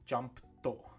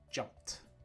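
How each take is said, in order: First: It ends with an extra vowel syllable. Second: It ends in a plain T sound. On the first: The speaker calls it wrong. "non-native speakers will often pronounce these as edo" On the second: The speaker calls it right. "One syllable, the t syllable, is natural"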